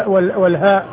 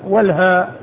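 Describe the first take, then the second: The two takes are said the same way.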